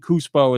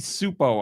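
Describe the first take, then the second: First: The name begins with a k sound. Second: The name begins with an s sound. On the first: The speaker calls it wrong. "is what I say, and I'm sure that's wrong" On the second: The speaker calls it right. "I guess is how you would say it. You don't pronounce the C in that"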